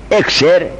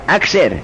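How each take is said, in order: First: اکسر read as "iksir"; first reading, i-vowel start. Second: اکثر offered as "aksir"; alternative a-vowel reading. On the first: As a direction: say اکسر as "iksir", opening on a short i. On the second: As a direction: say اکثر as "aksir", opening on a short a. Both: Shown as a demonstration. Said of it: "ثلاثی مجرده یا باب افعاله؟".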